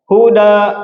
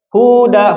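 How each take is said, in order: First: The first vowel is kept short. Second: The first vowel is drawn out long. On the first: It means guidance. "huna ponok" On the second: "huna pan, panjang"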